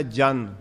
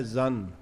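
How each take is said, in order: First: ਜਨ with a plain j, like "jan"; Punjabi pronunciation. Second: ਜ਼ਨ with a buzzing z, like "zun"; ਜ਼ਨ, z voiced and short vowel; Persian pronunciation. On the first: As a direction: say ਜਨ with the Gurmukhi j sound. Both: Shown as a demonstration. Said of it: "ਇਹਦਾ ਉਚਾਰਨ ਹੈ".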